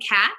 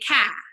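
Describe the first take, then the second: First: The final consonant is pronounced. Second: The final consonant is dropped. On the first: "instead of saying cat" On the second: "they leave off that final sound"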